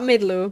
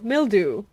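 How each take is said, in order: First: The L sound comes after the D. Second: The L sound comes before the D. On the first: The speaker calls it wrong. "not midlew" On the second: The speaker calls it right.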